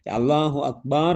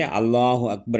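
First: அக்பார் said ak-baar with a long final aa; அக்பார் with its second syllable held long; lengthened-vowel mispronunciation. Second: Said in the usual way. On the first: Shown as a demonstration. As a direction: demonstrate the error by stretching the last vowel of அக்பார். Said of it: "அதன் பொருள் மேலங்கல் என்பதாகும்". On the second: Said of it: "என்று சொல்லும் பொழுது".

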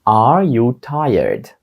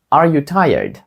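First: Slow, each word drawn out; slow model question. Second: Said in the usual way. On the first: Shown as a demonstration. Teacher modelling the question for students, slow and careful. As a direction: stretch it for learners. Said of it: "teacher models slow, then normal". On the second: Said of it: "teacher repeats at normal speed".

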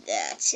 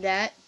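First: THAT dropped into a very deep voice; all-capitals emphasis. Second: Said in the usual way. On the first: Retold or imitated. Retelling a game line, THAT in deep creepy capitals. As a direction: set THAT apart, extremely low. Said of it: "it was, like, in all capitals". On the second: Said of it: "the word that".

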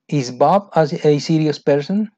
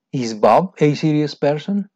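First: Rising question read aloud. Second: Rising question read again; repeated question. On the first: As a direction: clear classroom question read. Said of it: "reading listening questions". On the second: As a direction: model the question clearly. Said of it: "repeat of question". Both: Shown as a demonstration.

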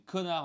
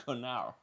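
First: Said in the usual way. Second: French insult with an English accent. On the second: Shown as a demonstration. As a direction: say it as an English speaker would. (accent anglais) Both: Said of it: "il a dit connard en anglais".

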